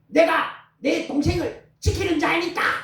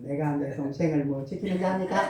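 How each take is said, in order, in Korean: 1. 크고 반항적인 목소리로 말합니다. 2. 감정 없이 무덤덤하게 말합니다. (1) "도리어 큰 소리로 안역하듯이 말합니다" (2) "그 감정도 안 엮고 ... 이게 아니라 화가 났다"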